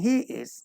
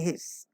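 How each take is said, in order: First: It is said in full as two words. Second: It is said as one contracted word. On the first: The speaker calls it wrong. "Instead of saying he is" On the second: The speaker calls it right. "say his"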